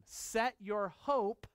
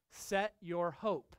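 First: "hope" drawn out, slow and weighty; stress on hope. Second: "set" leaned on, slow and deliberate; stress on set. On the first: Pastor repeating the verse, stressing "hope" slowly. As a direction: linger on "hope" to drive it home. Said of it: "on the grace of God". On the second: Pastor to congregation, slow stress on "set". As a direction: press the word "set" like setting a watch. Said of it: "Like setting your watch". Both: Shown as a demonstration.

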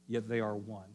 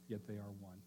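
First: Said in the usual way. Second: "Yet they are one" said again much softer, almost under the breath; hushed repeat. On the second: Shown as a demonstration. Preacher repeats the point to the congregation, hushed and soft.

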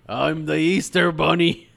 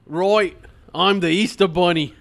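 First: Plain-voiced bunny. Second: Put-on Australian accent. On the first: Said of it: "You just went to, "Oh, I'm the Easter Bunny". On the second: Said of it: "Easter Bunny has an Australian accent".

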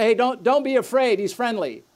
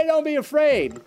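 First: A hint of a cheery parent calling out; reassuring parent. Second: Laughing mock dog owner, pitched higher. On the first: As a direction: lightly act the parent who says it's fine. Parent reassuring child about dog. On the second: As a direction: send up the owner's breezy reassurance. Dog owner's useless reassurance.

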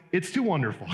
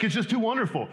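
First: Said in the usual way. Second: Higher, light mock exasperation on too wonderful; mock awed exasperation. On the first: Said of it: "And then he goes". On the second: Preacher mimicking the frustrated psalmist, mock exasperated. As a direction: throw up your hands, half laughing at it. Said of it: "It's like".

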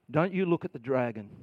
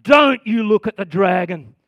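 First: Soft warning. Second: Firm warning. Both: Shown as a demonstration.

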